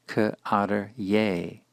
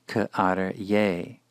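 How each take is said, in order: The two takes are said the same way.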